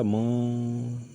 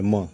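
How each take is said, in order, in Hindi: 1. अक्षर को लंबा खींचकर बोला गया है। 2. अक्षर छोटा और सीधा बोला गया है। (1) "परंतु उन्होंने कैसे बोला म, ऐसे। ... ट्यूनिंग कहने का मतलब ये कि लंबा" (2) "तो हम कैसे बोले म"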